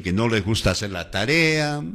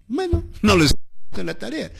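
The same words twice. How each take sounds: First: Said in the usual way. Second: High, fast put-on student voice; imitating a careless pupil; mock student voice. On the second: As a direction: mimic a lazy student brushing off homework. Teacher mimics lazy students.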